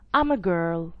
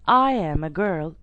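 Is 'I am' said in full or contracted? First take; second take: contracted; full. First: I am is shortened into one syllable. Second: I am is said as two full words. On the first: "it's going to be I'm a girl" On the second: "instead of saying I am a girl"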